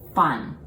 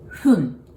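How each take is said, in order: First: The first sound uses teeth on the lower lip. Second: The first sound is a soft breath through both lips. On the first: The speaker calls it wrong. "you do not bite the lower lips like fun" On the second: The speaker calls it right. "pronounce it like blowing a candle"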